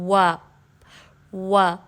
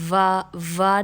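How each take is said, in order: First: The first sound uses only the rounded lips. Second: The first sound uses the teeth against the lip. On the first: The speaker calls it right. "बल्कि आपने पढ़ना है वा वा" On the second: The speaker calls it wrong. "दांतों का इस्तेमाल नहीं करना वाव के लिए, यानी आपने वा वा नहीं बोल पढ़ना"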